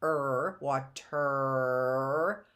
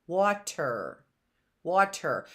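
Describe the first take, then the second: First: "er" alone, then "water" with a long held er; slow "wa-terrr" lifting at the end; stretched ending. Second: Said in the usual way. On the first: Shown as a demonstration. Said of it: "I heard". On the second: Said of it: "consonant in there as well".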